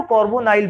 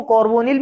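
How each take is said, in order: First: कार्बोनाइल with "-nile" as the last syllable; -nile ending. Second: कार्बोनिल with "-nil" as the last syllable; -nil ending. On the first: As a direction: end कार्बोनाइल with an "eye" sound before l. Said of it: "कार्बोनाइल भी बोल सकते हैं". (कार्बोनाइल में आखिरी ध्वनि "नाइल") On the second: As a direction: end कार्बोनिल on "nil", no "eye" sound. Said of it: "कार्बोनिल भी बोल सकते हैं". (कार्बोनिल में आखिरी ध्वनि "निल") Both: Shown as a demonstration.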